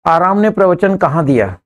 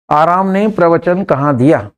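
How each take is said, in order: Both takes have the same delivery.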